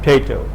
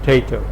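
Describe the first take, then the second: No difference in how they are said.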